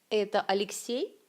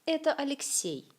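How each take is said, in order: First: Это Алексей with a rise on the last word; rising question tune. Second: Это Алексей with the voice falling at the end; falling statement tune. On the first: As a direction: ask Это Алексей, voice going up at the end. (question, intonation montante sur Алексей) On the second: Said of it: "Construction affirmative". (affirmation, intonation descendante) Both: Shown as a demonstration.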